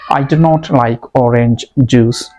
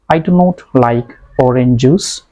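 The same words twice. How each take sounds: First: The two j sounds are said separately. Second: The two j sounds are merged together. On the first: The speaker calls it right. "It's right. J, this sound has to be uh, spoken separately" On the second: The speaker calls it wrong. "It's wrong"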